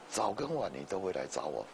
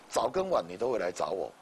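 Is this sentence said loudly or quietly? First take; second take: quietly; loudly. First: The sentence is said at a quieter volume. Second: The sentence is said at a louder volume.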